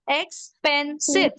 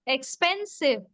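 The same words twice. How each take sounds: First: "Expensive" slowly split as ex, pen, sive; syllable by syllable. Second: Said in the usual way. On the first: Shown as a demonstration. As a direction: leave gaps between the three beats of "Expensive". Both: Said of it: "Three syllable words".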